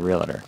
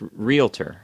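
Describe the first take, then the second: First: The word is said in its popular everyday form. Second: The word is said in its standard form. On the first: The speaker calls it wrong. "most people, when they say it, they say realtor" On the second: The speaker calls it right. "it's realtor"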